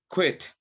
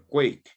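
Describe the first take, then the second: First: The vowel is a short i sound. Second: The vowel is a long ay sound. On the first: The speaker calls it right. "That's how you say it" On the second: The speaker calls it wrong. "You say quiet or quake"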